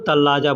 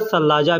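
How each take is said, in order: First: The word begins with a t sound. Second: The word begins with an s-like sound. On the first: This is the everyday spoken form. "वैसे बोलचाल में लोग तल्लाजा कहते हैं" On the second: This follows the written form. "लिखने में सलाजा लिखा जाता है, सा से लिखा जाता है"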